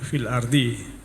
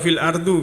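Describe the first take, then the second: First: The last word ends in an i vowel. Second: The last word ends in a u vowel. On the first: The speaker calls it right. "maka dibaca dibaca jer ardi" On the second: The speaker calls it wrong. "atau fil ardu"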